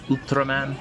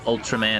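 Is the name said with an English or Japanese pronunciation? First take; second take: Japanese; English. First: The name is said with a Japanese pronunciation. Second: The name is said with an English pronunciation. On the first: The speaker calls it right. "The Japanese say" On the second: The speaker calls it wrong. "It's not"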